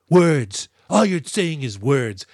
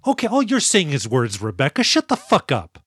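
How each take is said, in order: First: Mock scornful Rebecca. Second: Mock exasperation. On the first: Host mimicking Rebecca throwing it in Papa Gallo's face, mock scorn. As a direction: spit out the word Words. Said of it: "She goes". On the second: Real, not acted. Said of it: "I hate this".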